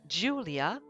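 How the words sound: The name is said with an English pronunciation. "In English, you would say Julia"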